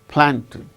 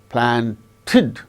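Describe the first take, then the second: First: The stress is on the first syllable. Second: The stress is on the last syllable. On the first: The speaker calls it right. "The stress should be only on the first syllable" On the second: The speaker calls it wrong. "The stress shall not be on the last syllable"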